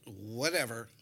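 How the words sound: It is said in a dismissive, annoyed way.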